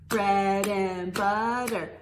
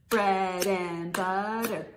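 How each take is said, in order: The two takes are said the same way.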